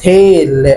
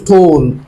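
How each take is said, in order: First: The vowel is an 'ay' sound. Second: The vowel is a back vowel, not 'ay'. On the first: The reader applies the spelling rule. The speaker calls it right. "هي مش طول، هي اسمها تيل" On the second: The reader does not know the spelling rule. The speaker calls it wrong. "حد يشوف ال ال ال اول كلمه مثلا دي فيقول طول، هو مش عارف القاعده"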